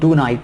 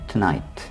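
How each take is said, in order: First: It is said as two separate words, too night. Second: It is said as one word with a short start. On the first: The speaker calls it wrong. "टू नाइट नहीं कहेंगे" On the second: The speaker calls it right. "टुनाइट कहेंगे"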